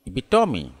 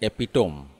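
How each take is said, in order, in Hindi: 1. शब्द 'ee' की ध्वनि पर खत्म होता है। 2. शब्द 'm' की ध्वनि पर खत्म होता है। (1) "राइट प्रोनाउंसिएशन" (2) "जिसे गलत से बोलते हैं"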